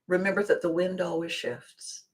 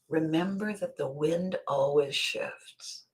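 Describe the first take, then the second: First: It is said casually, in passing. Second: It is said with strong, pointed emphasis. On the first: It is just a passing remark. "He just mentioned it" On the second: The listener must pay close attention. "He didn't say it like that"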